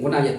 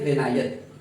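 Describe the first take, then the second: First: The first vowel is a 'u' sound. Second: The first vowel is an 'i' sound. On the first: The speaker calls it wrong. "बिल्कुल गलत है।" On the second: The speaker calls it right. "ये है ग़िनायत।"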